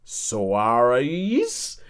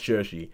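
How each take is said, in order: First: The name is sounded out literally from its spelling. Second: The name is said in its native pronunciation. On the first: The name was unfamiliar at first sight. The speaker calls it wrong. "I was trying to pronounce it, I was like" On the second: The name is now familiar and known. The speaker calls it right. "It's pronounced Saoirse"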